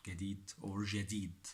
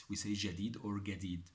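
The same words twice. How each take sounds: First: Teacher compares the two ways to say جديد; two pronunciations. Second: Teacher gives both forms of جديد; two pronunciations. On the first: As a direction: contrast ʒadid and gadid. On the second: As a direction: say ʒadid, then gadid. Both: Shown as a demonstration.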